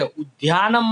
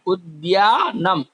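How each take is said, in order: First: उद्यानम said the wrong way, run together; the careless उद्यानम to avoid; teacher showing the mistake; wrong pronunciation. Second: उद्यानम slow, with both द and य sounded; teacher correcting a pronunciation; careful correct pronunciation. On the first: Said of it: "उद्यानम मत बोलना". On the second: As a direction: say उद्यानम slowly, voicing द and य. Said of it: "द और य का उच्चार होना चाहिए". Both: Shown as a demonstration.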